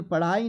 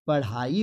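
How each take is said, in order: First: पढ़ाई with no breath on the ड़; "paḍai" for पढ़ाई, no h; higher पढ़ाई as the mistake; wrong pronunciation. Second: पढ़ाई with breathed ṛh; "paṛhai" for पढ़ाई, h audible; correct pronunciation. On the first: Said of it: "पढ़ाई नहीं होता है". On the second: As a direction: push air into the middle of पढ़ाई. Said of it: "पढ़ाई होता है". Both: Shown as a demonstration.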